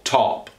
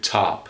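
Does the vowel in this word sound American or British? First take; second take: British; American. First: The vowel is said the British way. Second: The vowel is said the American way. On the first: "which is more of a British association for many people" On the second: "as opposed to top, stop, not for most Americans"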